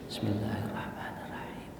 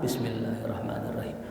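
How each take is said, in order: First: It is recited softly, barely audible. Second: It is recited very loudly.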